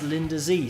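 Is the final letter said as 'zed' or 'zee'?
zee. The letter is pronounced 'zee', American style. The speaker calls it right.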